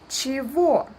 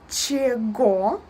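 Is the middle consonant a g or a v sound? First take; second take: v; g. First: The middle consonant is a v sound. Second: The middle consonant is a g sound. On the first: The speaker calls it right. "but we pronounce it чего" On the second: The speaker calls it wrong. "It's written чего"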